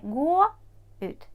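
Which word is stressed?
gå. The stress falls on the verb gå. The speaker calls it wrong. "Не gå ut"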